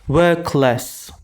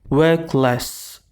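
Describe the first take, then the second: Both takes have the same delivery.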